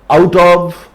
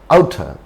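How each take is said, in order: First: The word of is pronounced in full. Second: The word of is reduced to a.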